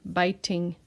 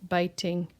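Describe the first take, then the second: The two takes are said the same way.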